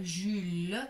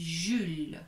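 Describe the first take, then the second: First: "Jules" with the final e sounded, "ju-leu"; mispronunciation demo. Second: "Jules" as one syllable, final e silent; correct pronunciation. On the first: Teacher shows what not to say, final e sounded. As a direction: add an extra "eu" syllable to "Jules". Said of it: "on ne dit pas Jules". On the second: Teacher shows what one says, silent final e. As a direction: end "Jules" on the l. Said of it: "on dit Jules". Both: Shown as a demonstration.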